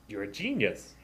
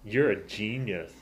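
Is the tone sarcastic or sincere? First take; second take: sincere; sarcastic. First: It is said in a sincere tone. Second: It is said in a sarcastic tone.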